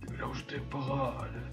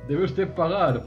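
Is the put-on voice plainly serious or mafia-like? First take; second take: mafia-like; serious. First: It is said in a gangster-like mafia voice. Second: It is said in a very serious voice. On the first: The speaker calls it right. "Ahora de repente te ha vuelto al Capone" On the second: The speaker calls it wrong. "Le pone usted una voz demasiado seria al señor"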